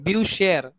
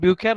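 First: The ch is a soft sh sound. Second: The ch is a harsh kh sound. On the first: The speaker calls it right. "it is permissible to pronounce CH as SH" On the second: The speaker calls it wrong. "ब्यू खेयर नहीं करते"

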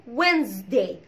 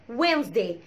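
Both takes have the same delivery.

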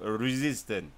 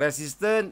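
First: It is said with an English accent. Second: It is said with a Malay accent. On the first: The speaker calls it right. "kalau yang betul-betul English punya" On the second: The speaker calls it wrong. "itu bahasa Melayu ataupun bahasa Jawa"

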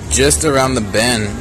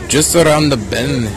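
First: It is said in the speaker's normal accent. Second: It is said in a put-on Scottish accent.

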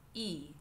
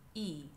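Both takes have the same delivery.

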